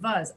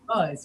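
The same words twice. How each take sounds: First: The word starts with a V sound. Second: The word starts with an exaggerated W sound. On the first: An old habit makes the muscles say it this way. The speaker calls it wrong. "your muscles just automatically start saying was" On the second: The speaker is consciously changing the habit. The speaker calls it right. "Say was each time, exaggerate"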